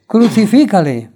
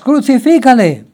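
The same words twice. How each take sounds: First: Loud crowd cry to Pilate; crowd shouting. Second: Higher, louder climactic yell; crowd screaming louder. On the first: The crowd demands crucifixion from Pilate, loud shout. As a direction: call it out like an angry crowd. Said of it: "volvieron a dar voces". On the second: The crowd screams at Pilate even louder, high full yell. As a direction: scream it harder than the crowd did before. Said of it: "gritaban aún más". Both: A narrator's reading.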